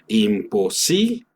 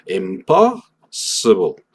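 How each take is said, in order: First: The stress falls late; the last syllable is clear. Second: The stress falls early; the last syllable is reduced. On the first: "Tengo que decir todas mis letras, todos mis fonemas, ble" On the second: "en inglés nos vamos a cargar más hacia la mitad o incluso el principio"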